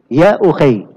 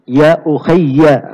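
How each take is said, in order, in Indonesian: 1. 'Y' di akhir itu pendek dan tunggal. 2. 'Y' di akhir itu ganda dan diikuti vokal. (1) "Ukhay ya-nya disukun" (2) "Kalau asli kalimatnya ya-nya itu ditasydid"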